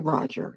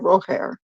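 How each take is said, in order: First: The name is pronounced the English way. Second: The name is pronounced the Spanish way. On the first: "in Nicaragua you don't say Roger" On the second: "you say Roger"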